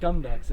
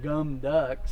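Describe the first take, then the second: First: The K and T are plain, without air. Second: The consonants are voiced, like G and D. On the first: The speaker calls it right. "It's gum ducks. It's just like you bite the sound off before a bunch of air can come out" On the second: The speaker calls it wrong. "It's not a G and a D. It's not gum ducks"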